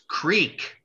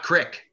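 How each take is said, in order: First: The vowel is a long 'ee' sound. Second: The vowel is a short 'i' sound. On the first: The speaker calls it right. "It's creek, not crick. There's two E's" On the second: The speaker calls it wrong. "not crick"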